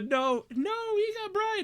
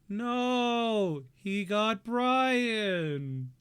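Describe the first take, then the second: First: It is said with dramatic, emotional concern. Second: It is said flatly, without any concern.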